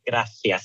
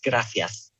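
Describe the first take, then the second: First: The middle consonant is a lisped th sound. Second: The middle consonant is a plain s sound. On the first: This is how it is said in Spain. "they don't say gracias here" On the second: This is how it is said in South America. "there's no lisp here"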